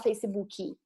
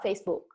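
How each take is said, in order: First: It has an extra 'i' sound, Brazilian style. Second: It is said without the extra vowel, British/American style.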